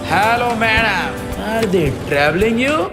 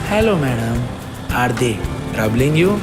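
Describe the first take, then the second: First: It is said with a cocky attitude. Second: It is said softly and lovingly.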